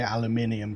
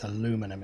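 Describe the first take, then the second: First: Aluminium said the British way, five syllables, al-yoo-MIN-ee-um. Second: Aluminum said the American way, four syllables, a-LOO-mi-num. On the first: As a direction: stress the MIN in aluminium, with the extra i sounded. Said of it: "so we say aluminium". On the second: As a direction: stress LOO in aluminum, with no extra i. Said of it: "it's aluminum if you're American". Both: Shown as a demonstration.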